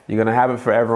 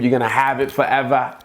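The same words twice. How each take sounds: First: It is said in a plain accent. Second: It is said in a Boston accent.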